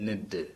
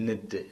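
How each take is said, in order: Both takes have the same delivery.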